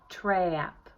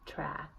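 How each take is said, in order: First: The vowel glides upward. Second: The vowel stays steady. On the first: "See how I'm gliding up" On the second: "instead of just saying ah"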